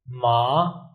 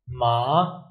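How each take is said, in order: First: The pitch rises from low to high. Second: The pitch rises from low to high.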